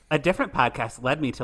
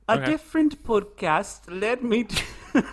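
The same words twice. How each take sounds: First: It is read in a normal American accent. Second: It is read in a put-on British accent. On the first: "I'll read it normal" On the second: "maybe I'll read it in a British accent"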